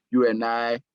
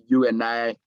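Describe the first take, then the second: No difference in how they are said.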